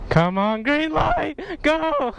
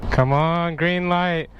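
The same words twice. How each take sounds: First: High excited yell. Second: Said in the usual way. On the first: Real, not acted. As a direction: burst out high at the light. Light turns, yelling.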